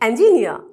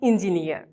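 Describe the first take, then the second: First: The first syllable does not sound like 'ing'. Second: The first syllable sounds like 'ing'. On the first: The speaker calls it right. "I repeat" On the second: The speaker calls it wrong. "not engineer"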